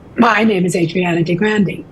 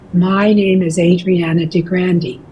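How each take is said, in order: First: The first syllable starts abruptly with tension. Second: The first syllable is eased in gently and relaxed. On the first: "as opposed to" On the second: "an easy, relaxed approach"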